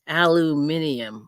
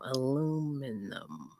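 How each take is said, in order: First: The word has five syllables. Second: The word has four syllables.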